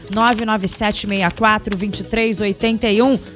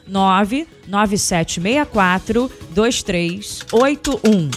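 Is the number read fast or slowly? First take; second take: fast; slowly. First: The number is read at normal, quicker speed. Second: The number is read slowly, digit by digit.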